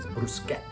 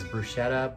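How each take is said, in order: First: It uses the traditional European-style pronunciation. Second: It uses the Canadian-style pronunciation. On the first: The speaker calls it right. "the traditional European way is bruschetta. It sounds way better" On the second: The speaker calls it wrong. "the Canadian way is bruschetta"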